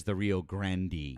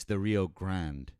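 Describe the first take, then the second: First: Grande in two syllables, GRAN-dee; slow Rio GRAN-dee, rhyming with candy; wrong pronunciation. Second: Grande as one syllable, GRAND, with silent e; slow Rio GRAND, no final vowel; Texan pronunciation. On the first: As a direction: add an ee to the end of Grande. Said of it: "No one says". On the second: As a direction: say Grande just like the English word grand. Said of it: "not with a Mexican accent". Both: Shown as a demonstration.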